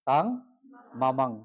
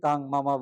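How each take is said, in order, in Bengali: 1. শেষ শব্দটি নাসিক ধ্বনিতে শেষ হয়। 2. শেষ শব্দটি একটি সাধারণ স্বরধ্বনিতে শেষ হয়। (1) "অনুসারটা কিন্তু বলতে হবে তাং মামাং" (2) "অনেকে কিন্তু তাং মামা বলে শেষ করে"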